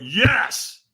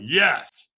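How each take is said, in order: First: Higher, more forceful yes; stronger yes. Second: Said in the usual way. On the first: Acted. Answering the trainer's demand for more, stronger. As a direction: push the yes up with effort. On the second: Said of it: "And he went, "Stronger".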